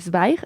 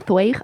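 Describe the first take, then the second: First: Zweig is pronounced the German way. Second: Zweig is read as spelled, Spanish-style. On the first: The speaker calls it right. "me dijeron que se decía Zweig" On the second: The speaker calls it wrong. "Yo le llamaba Stefan Zweig"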